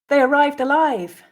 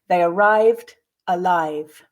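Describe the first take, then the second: First: The sentence is said at natural speed. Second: The sentence is said slowly. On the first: "repeat again twice at a more natural pace" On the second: "I'll read the first time slowly"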